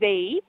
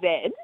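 First: The letter is said the American way, zee. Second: The letter is said the Australian way, zed.

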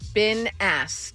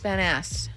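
First: The first word sounds like 'been'. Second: The first word sounds like 'Ben'. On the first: The speaker calls it right. "There you go" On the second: The speaker calls it wrong.

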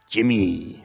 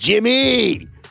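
First: The name is said in a calm tone. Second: The name is said in an angry tone. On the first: "That's what I wanted to do" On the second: "That sounded angry"

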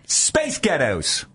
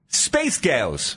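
First: The T in ghettos is clearly pronounced. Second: The T in ghettos is dropped, nearly silent. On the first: "it's the T that's throwing me off" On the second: "So say it without the T's"

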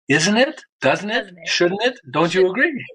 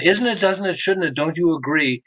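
First: The questions are spoken at a slow pace. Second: The questions are spoken at a normal pace.

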